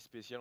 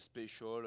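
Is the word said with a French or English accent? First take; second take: French; English. First: The word is said with a French accent. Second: The word is said with an English accent. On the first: The speaker calls it right. "on dit spécial" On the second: The speaker calls it wrong. "on dit pas special"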